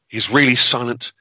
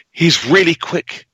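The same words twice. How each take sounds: First: Said in the usual way. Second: Really drawn out high and slow; stress on really. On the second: Shown as a demonstration. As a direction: lean hard into "really", slower, pitch up. Ominous build-up about the killer.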